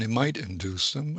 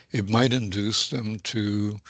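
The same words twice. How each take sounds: First: Might lifted with a rising push; stress on might. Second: Might pressed and held apart from the rest; stress on might. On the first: Expert stressing might to flag a caveat, with a rising lift. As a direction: lean on the word might to show doubt. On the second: Expert repeating his point with weight on might. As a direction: dwell on the word might to keep it conditional. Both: Shown as a demonstration. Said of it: "I emphasize the word might".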